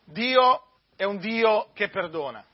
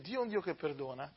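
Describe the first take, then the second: First: Slow and louder, every word weighted; emphatic proclamation. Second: Much softer, let Dio è un Dio che perdona settle gently; quiet, intimate Dio è un Dio che perdona; soft restatement. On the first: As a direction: plant the thesis firmly, Dio è un Dio che perdona. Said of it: "opening statement set against later restatement". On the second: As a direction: say it almost to yourself. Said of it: "quiet restatement of the thesis". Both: Shown as a demonstration.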